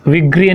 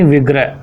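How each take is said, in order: First: "विग्रह" said as vigri, with final i; wrong pronunciation. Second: "विग्रह" ending in gra, not gri; correct pronunciation. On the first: ("विग्रह" को विग्री जैसा बोलना) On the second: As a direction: say "विग्रह" as vig-rah. ("विग्रह" में ग्र, सही उच्चारण) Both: Shown as a demonstration. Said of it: "विग्रह नहीं".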